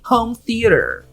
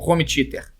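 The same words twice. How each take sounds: First: It is said with English-style sounds. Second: It is said with Portuguese sounds, as spelled. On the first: The speaker calls it wrong. "Pra mim tá mais certo que home theater" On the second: The speaker calls it right. "Pra mim essa tinha que ser a pronúncia, home theater. Tá ótimo, home theater. Com R mesmo, escrito dessa forma"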